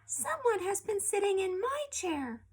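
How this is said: It is said in a small, babyish voice. Baby Bear is speaking. "in a little baby voice"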